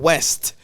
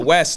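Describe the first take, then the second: First: The name ends with a t sound. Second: The name ends without a t sound. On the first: The speaker calls it wrong. "not West" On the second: The speaker calls it right. "there's no T"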